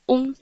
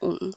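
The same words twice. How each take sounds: First: The syllable is said without the dipping tone. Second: The syllable is said with a dipping tone. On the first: "O-N-G prononce on" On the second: "Avec le troisième ton, ça fait on"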